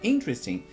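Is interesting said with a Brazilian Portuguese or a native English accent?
native English. It is said with a native English accent. The speaker calls it right. "a hora que a pessoa fala interesting"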